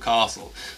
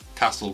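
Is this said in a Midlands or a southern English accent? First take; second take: southern; Midlands. First: It is said with a southern accent. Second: It is said with a Midlands accent.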